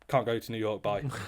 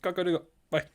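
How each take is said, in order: First: It is said in the speaker's ordinary accent. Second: It is said in an imitated foreign accent. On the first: The speaker calls it wrong. "he didn't say it like that" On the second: The speaker calls it right. "That's just an impression of his accent"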